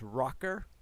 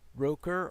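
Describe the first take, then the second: First: The name is said like 'rocker'. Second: The name is said like 'roker'. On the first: "if you mispronounce it, I guess it come out as Rocker" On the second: "I suppose Roker"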